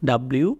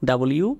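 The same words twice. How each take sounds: No difference in how they are said.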